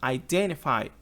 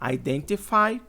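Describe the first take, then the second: First: The t after the n is dropped. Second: The t after the n is clearly pronounced. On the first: "identify com N" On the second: "identify com T"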